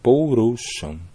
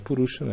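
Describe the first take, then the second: First: The first vowel is an ou diphthong. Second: The first vowel is a plain u sound. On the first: The speaker calls it right. "é Pourusham" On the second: The speaker calls it wrong. "não é Purusham"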